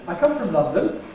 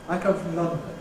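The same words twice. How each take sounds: First: The pitch rises high at the end. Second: The pitch falls at the end. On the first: This is a newer style the speaker does not normally use. "the use of a high-rise tone on a statement. And it sounds like this" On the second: This is how the speaker's generation normally speaks. "this is done with falling, proclaiming, declarative tones"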